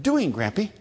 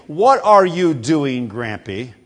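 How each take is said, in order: First: Put-on childlike clipped question, a touch higher; mimicking a toddler's shortened question; toddler talk. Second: Slow, deliberate full question; a hint of a patient grown-up asking; slow careful question. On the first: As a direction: squeeze it into two words like a toddler. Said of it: "it's just". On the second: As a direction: spell out each word of the proper question. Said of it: "rather than saying".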